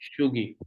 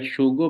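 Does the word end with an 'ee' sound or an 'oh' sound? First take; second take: ee; oh. First: The word ends in an ee sound. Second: The word ends in an oh sound. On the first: This is how the word is spoken. "but we pronounce it as a Shugi" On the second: This is how the word is written. "we write Shugo"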